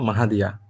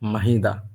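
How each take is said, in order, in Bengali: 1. নামটি চার অক্ষরে বলা হয়: Ma-ha-di-ya। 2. নামটি তিন অক্ষরে বলা হয়: Ma-hi-da। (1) "এটা কি যেন মাহাদিয়া" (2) "মাহিদা বলা যাবে না"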